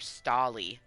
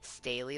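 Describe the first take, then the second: First: The first vowel sounds like 'stall'. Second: The first vowel sounds like 'stay'. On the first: "or stall" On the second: "It'd be stay"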